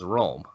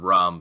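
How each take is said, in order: First: The word is slurred in a drunken way. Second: The word is said clearly and normally.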